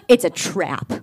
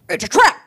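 First: It is said in the speaker's ordinary voice. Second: It is said in a put-on dramatic character voice.

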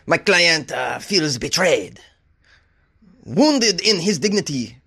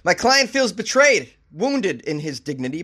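First: It is said in a put-on French accent. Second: It is said in the speaker's normal accent.

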